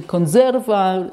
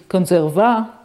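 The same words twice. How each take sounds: First: Conserva with stress on the middle syllable, con-SER-va; correct Italian stress. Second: Conserva stressed on the first syllable, CON-serva; misplaced stress. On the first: Lecturer showing students the correct reading, stress on SER. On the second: Lecturer imitating a dyslexic misreading, stress on CON. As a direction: say conserva wrongly, punching CON. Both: Shown as a demonstration. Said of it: "so instead of".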